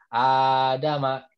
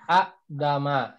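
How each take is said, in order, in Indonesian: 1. Vokal pertama dipanjangkan menjadi dua ketukan. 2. Hentian glotis ada sebelum bunyi d. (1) "jadi berubah jadi Adama" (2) "aslinya itulah adalah Adama"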